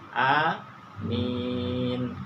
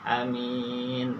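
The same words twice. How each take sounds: First: The first vowel is a long a sound. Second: The first vowel is a short a sound. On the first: "A-nya panjang, mim-nya panjang" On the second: "A-nya pendek, mi-nya yang panjang"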